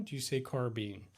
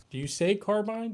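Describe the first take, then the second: First: "carbine" ending like bean; carbine as car-been. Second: "carbine" ending like mine, higher and louder; carbine as car-bine. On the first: Streamer offers chat the other pronunciation, carbine as car-been. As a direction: ask with the end of "carbine" said as been. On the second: Streamer polls chat on pronunciation, carbine as car-bine. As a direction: ask with "carbine" rhyming its end with line. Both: Shown as a demonstration. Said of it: "how do you guys pronounce".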